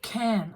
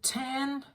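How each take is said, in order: First: The word begins with a K sound. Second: The word begins with a T sound. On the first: The speaker calls it right. "Like can" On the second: The speaker calls it wrong. "He put in a T instead of a K"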